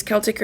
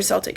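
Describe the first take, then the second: First: Celtic said with a K sound, KEL-tik; hard-C pronunciation. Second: Celtic said with an S sound, SEL-tik; soft-C pronunciation. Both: Shown as a demonstration. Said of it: "however you wanna say it".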